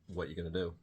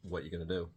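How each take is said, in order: First: The words are linked and run together smoothly. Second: The same.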